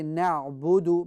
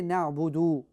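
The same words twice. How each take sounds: First: The final vowel is kept short. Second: The final vowel is drawn out long. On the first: The speaker calls it right. "Just say na'budu because there is no waw after that" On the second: The speaker calls it wrong. "don't say na'budu"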